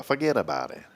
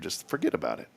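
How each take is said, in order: First: Lightly imitated tough "fuhgeddaboutit"; Mickey Blue. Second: Said in the usual way. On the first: Host quoting a character mid-relaxation, lightly put-on voice. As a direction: toss it off as a soft catchphrase impression. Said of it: "like that guy, Mickey Blue". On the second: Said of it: "like that guy".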